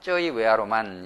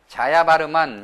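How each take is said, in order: First: It is said jjeo-i-we-a-ro-man. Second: It is said ja-ya-ba-reu-man. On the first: This is the way Cambodians say it. The speaker calls it right. "자야바르만이 아니라 쩌이웨아로만 이렇게 발음하는 것이 좋을 것 같습니다" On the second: This is the English-based way Koreans say it. The speaker calls it wrong. "영어로 그 이 쩌이웨아로만을 자야바르만 이렇게 발음하는데"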